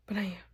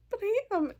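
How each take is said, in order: First: Said in the usual way. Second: 1 teary squeak. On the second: Real, not acted.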